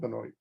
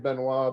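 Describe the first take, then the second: First: The name is said with an English pronunciation. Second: The name is said with a French pronunciation. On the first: "but we'll go with Benoit" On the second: "some in the French pronunciation say Benoit"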